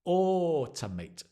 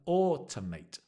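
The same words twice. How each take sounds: The two takes are said the same way.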